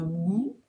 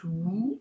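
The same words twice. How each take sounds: First: The word begins with a w sound. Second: The word begins with an h sound. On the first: The speaker calls it wrong. "C'est pas who" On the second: The speaker calls it right. "C'est who avec un H. Comme s'il n'y avait pas de W"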